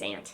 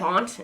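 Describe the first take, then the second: First: The vowel matches the one in 'ant'. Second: The vowel differs from the one in 'ant'. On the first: The speaker calls it right. "it's aunt. Like the ants go marching in" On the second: The speaker calls it wrong. "I never say aunt. That was not natural for me to say"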